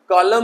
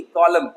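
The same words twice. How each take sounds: First: कॉलम with an extra n at the end, "kolamn"; wrong, n sounded. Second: कॉलम ending on m; कॉलम as "KO-lum"; silent n. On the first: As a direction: voice a final n after कॉलम. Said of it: "कॉलम नहीं". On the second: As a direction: close कॉलम on the m, no n. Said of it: "इस तरीके से कॉलम". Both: Shown as a demonstration.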